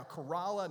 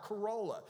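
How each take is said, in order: First: Corolla said kuh-RAH-la; local pronunciation. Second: Corolla said kuh-ROH-la, higher pitched; wrong pronunciation. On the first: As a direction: Corolla with an open AH in the middle. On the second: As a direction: give Corolla a long O as the wrong example. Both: Shown as a demonstration. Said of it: "not Corolla".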